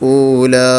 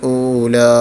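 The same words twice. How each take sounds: Both takes have the same delivery.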